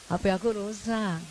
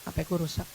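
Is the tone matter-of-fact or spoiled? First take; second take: spoiled; matter-of-fact. First: It is said in a spoiled, high voice. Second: It is said plainly, acting independent.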